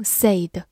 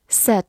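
First: "said" as "say" plus d; wrong pronunciation. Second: "said" with a short e, like "sed"; correct pronunciation. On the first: Teacher warns learners not to misread it, "said" with long ay. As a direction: stretch "said" with the long ay of "say". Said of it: "也不要读成said". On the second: Teacher shows learners the past tense, "said" with short e. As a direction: say "said" to rhyme with "bed". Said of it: "读作said". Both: Shown as a demonstration.

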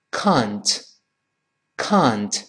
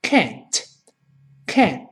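First: "can't" with a long open "ah"; slow British "can't", vowel as in "father". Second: "can't" with an "æ" vowel; slow American "can't", crisp final T. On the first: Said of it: "英国人不能读成啊的声音". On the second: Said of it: "到了美音就简单了". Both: Shown as a demonstration.

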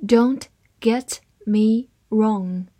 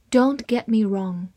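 First: Slow, word-by-word model reading; deliberate, spaced-out teaching pace; slow read-aloud. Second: Said in the usual way. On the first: Shown as a demonstration. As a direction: read it slowly with a pause after each word. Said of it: "好，慢慢来读".

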